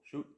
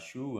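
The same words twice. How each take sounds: First: The vowel is kept short. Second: The vowel is drawn out long. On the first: The speaker calls it right. "là c'est court" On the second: The speaker calls it wrong. "et non pas Shu"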